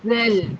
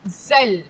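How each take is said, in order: First: The first consonant sounds soft and weak. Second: The first consonant sounds hard and strong. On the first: "kalau keluarkan lidah dia bunyi lemah" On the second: "tak keluarkan lidah dia bunyi kuat"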